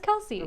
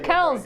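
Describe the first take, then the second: First: The surname has two syllables, ending in 'see'. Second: The surname has one syllable, ending in 's'. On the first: The speaker calls it wrong. "not Kelsey" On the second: The speaker calls it right. "It's supposed to be Kells"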